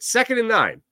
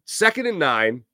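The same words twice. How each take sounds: First: Second pitched much higher; stress on Second. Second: Said in the usual way. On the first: Shown as a demonstration. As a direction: punch Second up high.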